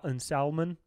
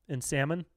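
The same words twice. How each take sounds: First: "salmon" said with a clear L, sal-mon; L pronounced in salmon. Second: "salmon" said the usual way, sam-mon, no L; silent L in salmon. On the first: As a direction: sound out the L in "salmon" mockingly. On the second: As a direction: drop the L in "salmon". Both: Shown as a demonstration. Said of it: "people who pronounce the L in sal".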